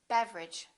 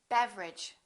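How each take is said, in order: Both takes have the same delivery.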